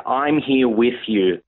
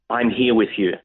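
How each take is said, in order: First: Very slow, gentle and tender; slow it right down, comforting; gentle reassurance. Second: Said in the usual way. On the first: Retold or imitated. Repeats Jesus's line, slowed.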